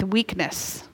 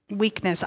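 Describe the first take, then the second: First: Said in the usual way. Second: Weakness. repeated much softer, falling, alone; soft echo of the word. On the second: Shown as a demonstration. Preacher echoing Weakness. to the congregation, soft and falling. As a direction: let Weakness. drop to a near hush.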